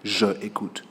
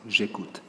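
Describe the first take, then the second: First: The vowel of je is fully pronounced. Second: The vowel of je is dropped and linked. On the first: The speaker calls it wrong. "we think it is ugly to say" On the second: The speaker calls it right. "So we say"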